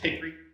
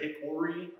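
First: The middle vowel is dropped, two syllables. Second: The middle vowel is pronounced, three syllables. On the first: The speaker calls it right. "There's no O in that word. It's just Hickory" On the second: The speaker calls it wrong. "People that say Hickory are pronouncing it wrong"

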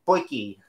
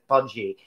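First: The first syllable sounds like 'poy'. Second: The first syllable sounds like 'puj'. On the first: The speaker calls it right. "They pronounce it poiki" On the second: The speaker calls it wrong. "they don't pronounce it pudgy"

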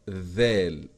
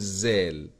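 First: It begins with a voiced th sound. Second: It begins with a buzzing z sound. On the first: The speaker calls it right. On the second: The speaker calls it wrong. "لا تقل زال، زال غلط"

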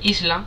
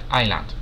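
First: The S in the word is pronounced. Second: The S in the word is silent. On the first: The speaker calls it wrong. "se escribe Island" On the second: The speaker calls it right. "se pronuncia Island, la S es muda"

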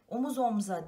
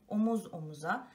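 First: The vowel after the m is dropped. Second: The vowel after the m is pronounced. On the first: The speaker calls it wrong. "değil" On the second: The speaker calls it right. "Omuz omza değil, omuz omuza"

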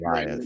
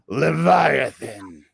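First: It is said in a normal voice. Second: It is said in a deep growl.

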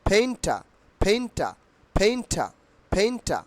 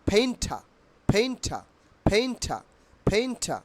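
The two takes are said the same way.

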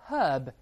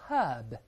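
First: The h sound at the start is pronounced. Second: The same.

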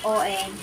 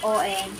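First: The word is cut short to one syllable. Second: The word is cut short to one syllable.

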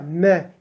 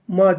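First: The vowel is thin, close to 'e'. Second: The vowel is thick, close to 'a'. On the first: The speaker calls it right. "me ince" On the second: The speaker calls it wrong. "ma değil"

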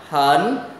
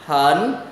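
First: The pitch rises from mid to high. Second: The pitch rises from mid to high.

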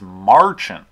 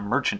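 First: The first syllable sounds like 'mar'. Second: The first syllable sounds like 'mer'. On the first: The speaker calls it right. "it's marchant" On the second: The speaker calls it wrong. "it's not merchant"

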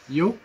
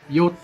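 First: The word ends with a k sound. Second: The word ends with a t sound. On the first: The speaker calls it wrong. "Important here is not yok" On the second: The speaker calls it right. "It just says on yot with a T at the end"

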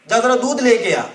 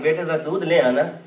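First: It is said in a harsh, strict tone. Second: It is said in a loving, gentle tone.

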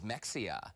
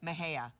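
First: The middle consonant sounds like ks. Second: The middle consonant sounds like h. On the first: The speaker calls it wrong. "But it looks like Mexia" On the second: The speaker calls it right.

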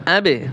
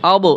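First: The final consonant is released with an echoing bounce. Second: The final consonant is cut off without any bounce. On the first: The speaker calls it right. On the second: The speaker calls it wrong.

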